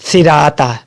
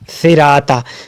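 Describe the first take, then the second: The two takes are said the same way.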